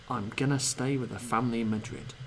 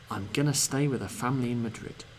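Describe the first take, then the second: No difference in how they are said.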